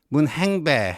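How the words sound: The name is said in Gyeongsang dialect pronunciation.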